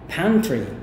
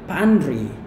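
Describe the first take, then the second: First: The T sound is pronounced. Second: The T sound is dropped. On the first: The speaker calls it right. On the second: The speaker calls it wrong.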